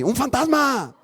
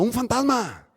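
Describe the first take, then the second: First: It is said in a frightened voice. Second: It is said in a neutral voice.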